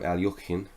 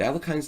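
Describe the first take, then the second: First: The name is said with a Russian pronunciation. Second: The name is said with an English pronunciation.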